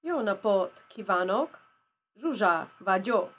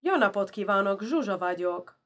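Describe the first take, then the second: First: Halting learner's "Jó napot kívánok, Zsuzsa vagyok", stress shifted off each first syllable; wrong-syllable emphasis. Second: Hungarian phrase with stress on the first syllables of "Jó napot kívánok, Zsuzsa vagyok"; fluent "Jó napot kívánok, Zsuzsa vagyok", each word stressed at its start; proper Hungarian emphasis. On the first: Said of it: "put the emphasis in the middle of the last syllable". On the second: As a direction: punch the first syllable in "Jó", "Zsuzsa", then let the rest fall. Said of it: "with the proper accent and emphasis first".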